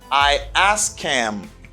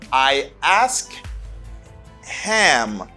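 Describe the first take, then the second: First: The h in him is dropped entirely. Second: The h in him is clearly pronounced. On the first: "When speaking, you say, ... You just take off this. You don't pronounce it" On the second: "Here, you say"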